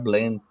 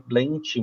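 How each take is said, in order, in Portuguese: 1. O nome é falado com pronúncia inglesa. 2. O nome é falado com pronúncia portuguesa. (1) "ele não precisa ficar blend" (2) "a gente optou até por manter a pronúncia mais aportuguesada mesmo"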